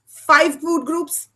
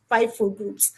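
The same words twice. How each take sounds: First: Five food groups drawn out slow with Five lifted; slow emphatic. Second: Said in the usual way. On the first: Retold or imitated. Boy mocks Mama's lunch rule, slow and emphatic. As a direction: spell out Five food groups slowly, like a lecture.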